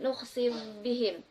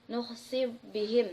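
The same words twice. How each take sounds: First: The final consonant merges into the next sound. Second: The final consonant is pronounced separately.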